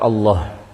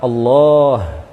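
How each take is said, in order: First: The vowel in Allah is cut short. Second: The vowel in Allah is drawn out long. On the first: The speaker calls it wrong. "tidak boleh dibaca Allah" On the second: The speaker calls it right. "Yang pertama adalah Allah"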